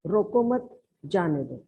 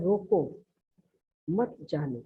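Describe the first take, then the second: First: रोको मत run together, then जाने दो; pause after मत. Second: रोको alone, a clear break, then मत जाने; pause after रोको. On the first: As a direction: break before जाने दो, not after रोको. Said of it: "लेकिन दूसरे वाक्य में". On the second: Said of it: "जैसे पहला वाक्य है". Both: Shown as a demonstration.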